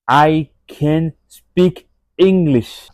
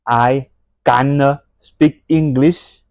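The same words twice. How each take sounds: First: It is said with an American-sounding accent. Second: It is said with a French-sounding accent. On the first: The speaker calls it right. "c'est I can speak English" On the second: The speaker calls it wrong. "ce n'est pas I can speak English en mode French sound"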